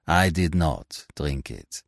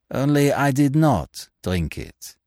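First: Slow and lower, stress on "I"; gentle, unhurried, "I" stressed. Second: Slow and calm, leaning on "not"; calm reveal, "not" stretched and stressed; unhurried "did not drink it" with weight on "not"; placid. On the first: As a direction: softly lean on "I" in "I did not drink it". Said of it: "he said gently". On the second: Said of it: "said a placid voice". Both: A narrator's reading.

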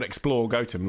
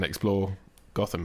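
First: "Gotham" like goat plus um; village pronunciation. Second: "Gotham" the comic-book way, short first vowel; Batman pronunciation. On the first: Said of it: "supposed to be pronounced Gotham". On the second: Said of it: "they started mispronouncing it". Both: Shown as a demonstration.

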